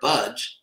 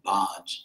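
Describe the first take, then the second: First: The vowel sounds like the one in budge. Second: The vowel differs from the one in budge. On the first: The speaker calls it right. "as in the English word, I won't budge. That's actually how it's pronounced" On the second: The speaker calls it wrong. "Devotees tend to pronounce it baj"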